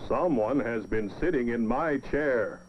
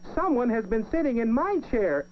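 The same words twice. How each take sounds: First: It is said in a big, deep voice. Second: It is said in a tiny, small voice.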